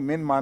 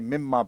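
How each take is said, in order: First: The n is pronounced clearly before the m. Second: The n merges fully into the following m. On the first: The speaker calls it wrong. "मिन माँ नहीं पढ़ना" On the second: The speaker calls it right. "बल्कि मिम माँ पढ़ना है"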